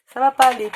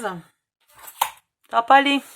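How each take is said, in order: First: Louder, firmer, pas stretched long; emphatic repeat. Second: Slow dismayed drawl, almost to herself; dismayed realisation. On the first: Crafter confirming the piece won't fit, louder and emphatic. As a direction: insist it simply won't work. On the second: Crafter noticing the box won't fit, dismayed and slow. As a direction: let it sink in that it won't work. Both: Real, not acted.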